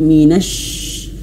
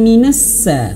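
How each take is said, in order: First: The consonant is a spread, breathy sh sound. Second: The consonant is a sharp, narrow s sound. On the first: The speaker calls it right. "tapi minash, anginnya bertebaran di dalam mulut" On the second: The speaker calls it wrong. "bukan minassa"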